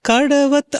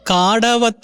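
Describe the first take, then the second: First: The first vowel is kept short. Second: The first vowel is drawn out long. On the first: The speaker calls it right. "ഒത്തിരി അങ്ങനെ stress ചെയ്ത് കഴിഞ്ഞ് കഴിഞ്ഞാൽ അത് കായായി പോകും" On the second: The speaker calls it wrong. "അത് കാടവത്ത് എന്ന് പറയുന്ന പോലെ ഫീൽ ചെയ്യുന്നു"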